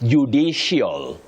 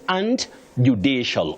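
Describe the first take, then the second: First: The word is said with an added glide sound. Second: The word is said without any added glide sound. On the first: The speaker calls it wrong. "Judicial, judicial, no. You avoid those glides" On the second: The speaker calls it right.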